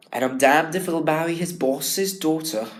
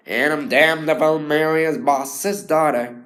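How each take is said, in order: First: "damned" in a posh English accent, the wrong take; a posh English accent, how Billy should not sound; posh English delivery. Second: Louder New England American accent, hard consonants; the American accent, jaw working. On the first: Student showing the wrong posh English Billy line. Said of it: "otherwise it would sound really posh". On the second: Student showing Billy's line in a New England American accent. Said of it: "using that real consonant that a lot of Americans". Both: Shown as a demonstration.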